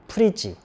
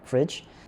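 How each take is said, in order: First: The word is said as three syllables. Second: The word is said as one syllable. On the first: The speaker calls it wrong. "삼음절로 처리하는 경우가 많아요" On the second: The speaker calls it right. "fridge는 한음절이에요"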